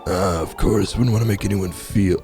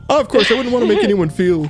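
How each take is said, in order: First: It is said in a voice unlike the character's. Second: It is said in the character's usual voice.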